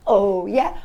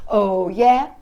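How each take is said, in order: Both takes have the same delivery.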